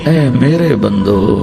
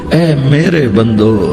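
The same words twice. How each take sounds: Both takes have the same delivery.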